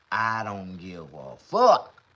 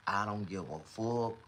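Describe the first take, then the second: First: Drawn-out words with a loud punch on "fuck"; emphatic repeat. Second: Said in the usual way. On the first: Real, not acted. Streamer insisting to viewers about toothaches, slow emphatic punch on "fuck". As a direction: stretch it slowly, then hit "fuck" hard.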